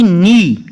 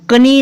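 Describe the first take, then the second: First: "नी" starting straight on n; silent K. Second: "कनी" with a k before the n; wrongly sounded K. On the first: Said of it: "इसको कनी नहीं पढ़ना". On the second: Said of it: "नहीं पढ़ना". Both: Shown as a demonstration.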